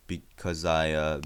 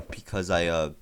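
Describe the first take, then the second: No difference in how they are said.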